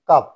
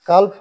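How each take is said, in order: First: No L sound is pronounced before the F. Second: An L sound is pronounced before the F. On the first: The speaker calls it right. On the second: The speaker calls it wrong.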